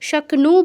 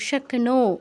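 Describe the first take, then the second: First: The word ends in a short 'nu' sound. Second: The word ends in a long 'no' sound. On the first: The speaker calls it wrong. "শক্নু বলবো না" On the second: The speaker calls it right. "ওকার আছে কিন্তু"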